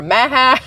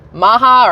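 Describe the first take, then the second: First: Maha with the first vowel of MAGA; MAGA-style pronunciation. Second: Maha said with an open "ah"; alternate pronunciation. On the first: Host testing the other way, Maha as "MAA-hah" like MAGA. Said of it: "if it's maga, it should be Maha". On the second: Host trying out how to say the slogan, Maha as "MAH-hah". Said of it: "what accent you're supposed to put". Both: Shown as a demonstration.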